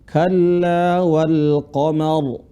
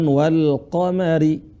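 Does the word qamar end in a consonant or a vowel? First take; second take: consonant; vowel. First: The word ends on the r with no vowel. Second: The word ends with an extra i vowel. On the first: The speaker calls it right. "Ketika waqaf maka huruf terakhir kita sukunkan" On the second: The speaker calls it wrong.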